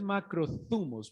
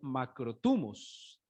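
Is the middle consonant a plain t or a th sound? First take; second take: th sound; plain t. First: The middle consonant is a soft th sound. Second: The middle consonant is a plain t sound. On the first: "de hecho es macrotumos, pero es que esa pronunciación me cuesta, esa T H me cuesta" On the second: "como yo soy colombiano, leo macrotumos"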